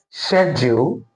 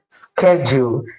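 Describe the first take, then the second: First: It is said with a British pronunciation. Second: It is said with an American pronunciation. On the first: "the British pronunciation of this word is schedule" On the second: "the American pronunciation of this word is schedule"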